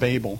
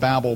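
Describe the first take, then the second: First: It is said unlike the word 'babble'. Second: It is said like the word 'babble'.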